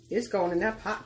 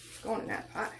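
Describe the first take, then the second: First: Said in the usual way. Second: Breathy whisper, no voice, very soft; whispered aside. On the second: Real, not acted. Cook murmuring to herself as seasoning goes in, whispered. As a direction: let the repeat drop to a secret whisper. Cook repeats, hushed, to pot.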